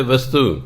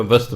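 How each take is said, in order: First: ਵਸਤੂ with a long final oo; Hindi form. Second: ਵਸਤ with no final vowel; Gurbani pronunciation. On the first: Teacher citing the Hindi word, ਵਸਤੂ ending in oo. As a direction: end ਵਸਤੂ on a full oo vowel. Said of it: "ਵਸਤੂ ਨਹੀਂ ਬੋਲਦੇ". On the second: Teacher giving the Gurbani rule, ਵਸਤ ending on t. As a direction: stop ਵਸਤ on the t, no oo. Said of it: "ਆਪਾਂ ਵਸਤ ਬੋਲਦੇ ਹਾਂ". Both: Shown as a demonstration.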